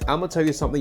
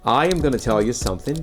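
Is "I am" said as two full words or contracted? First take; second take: contracted; full. First: The words are contracted and run together. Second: Each word is said fully and separately. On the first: "in a reduced form with contractions" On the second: "if I were to articulate every word in that sentence"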